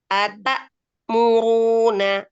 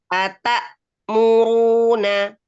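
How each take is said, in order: First: There is a short stop after ata. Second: There is a short stop after ata.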